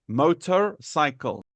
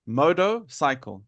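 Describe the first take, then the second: First: Slow motorcycle with the R sounded. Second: Moto-cycle, R dropped; motorcycle without R. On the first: Teacher showing the preferred way, motorcycle with R. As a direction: put the R into motor, slowly. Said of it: "I prefer putting R". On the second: Teacher repeating for the student, motorcycle without R. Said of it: "I did not put R". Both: Shown as a demonstration.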